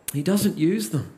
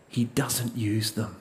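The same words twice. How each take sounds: First: Said in the usual way. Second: Softer and slower, letting it land; hushed, weighty statement; quiet, slow emphasis. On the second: Real, not acted. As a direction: drop the voice and slow right down on it. Preacher repeats key line softly.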